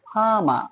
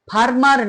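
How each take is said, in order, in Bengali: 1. r-এর উচ্চারণ একেবারেই করা হয় না। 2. এই শব্দে r-এর উচ্চারণ করা হয়। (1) "কোনো আরই উচ্চারণ হলো না" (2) "এখানে ফার্মার না হয়ে"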